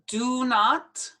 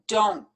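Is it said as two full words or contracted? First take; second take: full; contracted. First: It is said as two full words. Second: It is one syllable with a firm final t.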